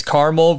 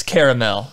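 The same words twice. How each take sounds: First: "caramel" said as CAR-mul; "caramel" in two syllables, starting like "car"; two-syllable pronunciation. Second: "caramel" said as KAIR-uh-mel; "caramel" with the middle vowel sounded, KAIR-uh-mel; three-syllable pronunciation. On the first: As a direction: say "caramel" short, KAR-mul, no middle vowel. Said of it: "When it's harder". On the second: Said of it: "When it's soft". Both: Shown as a demonstration.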